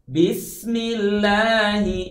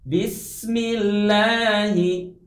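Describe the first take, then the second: The two takes are said the same way.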